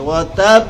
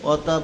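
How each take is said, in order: First: The final b has a strong, forceful bounce. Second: The final b is a plain unreleased stop. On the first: The speaker calls it right. "জোরে বাড়ি খাবে, জোরে ধাক্কা লাগবে" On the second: The speaker calls it wrong. "বারে যজন দিয়া পড়ে"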